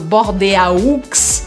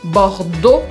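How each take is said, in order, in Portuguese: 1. As letras da terminação são pronunciadas separadamente. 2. A terminação é um único som de O. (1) "eu nunca falo Bordeaux" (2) "E, A, U, som de O"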